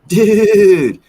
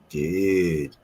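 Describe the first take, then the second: First: It is said in a happy, greeting tone. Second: It is said in a suggestive, inviting tone. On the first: The speaker is glad to see the listener. "Or if you're happy to see one" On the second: The speaker wants to go smoke together. "Or if you want to go smoke a joint"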